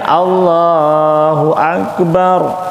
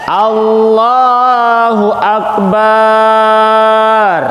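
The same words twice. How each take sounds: First: The last syllable of akbar is kept short. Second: The last syllable of akbar is drawn out long. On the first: The speaker calls it right. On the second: The speaker calls it wrong. "jangan memanjangkan akbar"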